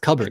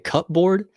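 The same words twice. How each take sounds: First: The syllables blend with no hard p. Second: The p is clearly pronounced between syllables. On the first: The speaker calls it right. "you gotta blend it together" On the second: The speaker calls it wrong. "did he just say cupboard?"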